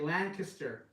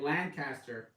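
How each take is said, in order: First: The name is said the way locals say it. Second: The name is said the speaker's former way. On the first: This is how people there say the name. The speaker calls it right. "it's just uh, the way they pronounce it. They say Lancaster" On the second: This is how the speaker used to say the name. The speaker calls it wrong. "I've been saying it Lancaster"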